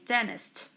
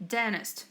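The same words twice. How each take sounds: First: The T in the middle is dropped. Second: The T in the middle is dropped.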